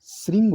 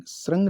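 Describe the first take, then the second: First: श्रृंग said "sring"; correct pronunciation. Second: सरंग said "srang", with an a vowel; misspelt reading. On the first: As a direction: say श्रृंग with a clear "ri". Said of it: "श्रृंग होता है ये". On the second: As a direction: say सरंग with "rang". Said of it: "ये नहीं आएगा नीचे वाला डंडा". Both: Shown as a demonstration.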